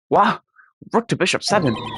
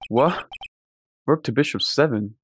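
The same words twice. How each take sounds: First: It is read in the detective character's voice. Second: It is read in the speaker's normal voice.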